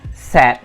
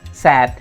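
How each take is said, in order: First: The vowel sounds short, like 'sed'. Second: The vowel sounds short, like 'sed'.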